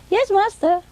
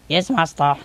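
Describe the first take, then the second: First: High-pitched mimicked servant; boy's voice. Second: Lightly imitated male assistant; man's voice. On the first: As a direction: answer high, as a parrot copying a young assistant. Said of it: "Sometimes say it in a boy's voice". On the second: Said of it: "sometimes say it in a man's voice".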